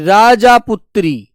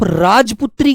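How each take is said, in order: First: The first part has a long final aa vowel. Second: The first part is shortened with no final vowel. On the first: The speaker calls it wrong. "राजापुत्री थोड़ी होगी" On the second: The speaker calls it right. "उसे आप राजपुत्री कहकर के बोलो"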